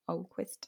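The name is said the English way.

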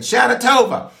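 It is said in an American accent. "Or because we're American"

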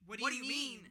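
The question is asked in a hostile tone. The speaker sounds annoyed and confrontational. The speaker calls it wrong. "okay, damn. Defense mode"

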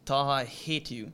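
It is said with only mild anger.

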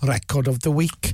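It is said in a Welsh accent.

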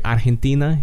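The name is said with a Spanish accent. "Argentina in Spanish would be like"

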